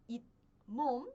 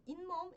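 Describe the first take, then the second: First: "itmom" split, with a stopped t before mom; unlinked reading. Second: "inmom" linked, with n in place of the t; nasal assimilation. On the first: Teacher showing students the form to avoid, syllables separated. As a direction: say "it", stop, then "mom". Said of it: "Ao invés de pronunciar como". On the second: Teacher showing students the heard form, nasal linking. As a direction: say "inmom" smoothly, humming the n into the m. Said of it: "eu pronuncio como inmom". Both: Shown as a demonstration.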